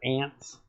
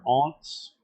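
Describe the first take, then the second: First: The word is said with an American accent. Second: The word is said with an English accent. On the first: "instead of your aunts" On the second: "talk like English people and call them your aunts"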